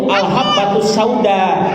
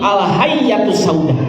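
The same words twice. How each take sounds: First: "al-habbatus sauda" read with a b sound; correct reading. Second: "al-hayyatus sauda" with doubled y for b; slow "al-hayyatus", y sound replacing the b; misreading. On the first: Preacher shows students how the book should be read, correct reading. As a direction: say "al-habbatus" clearly, with doubled b. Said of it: "yang harusnya bacaannya itu". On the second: Preacher shows how the untaught man misread the book, misreading. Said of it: "dia bacanya itu bukan al-habbatus sauda". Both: Shown as a demonstration.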